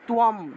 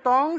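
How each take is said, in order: First: It is said as 'tuyam' with a glide. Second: It is said as 'tong' with no glide. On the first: This is the Sanskrit pronunciation. "সংস্কৃত উচ্চারণ হবে তুয়ম" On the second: This is the everyday Bengali pronunciation. "বাংলায় বললে তং"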